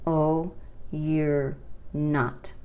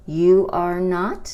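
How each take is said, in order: First: Slow contraction demo. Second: "You are not" louder and slower; louder model. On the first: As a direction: draw out the contraction gently. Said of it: "es posible formar una contracción". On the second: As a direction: stress the full form clearly. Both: Shown as a demonstration.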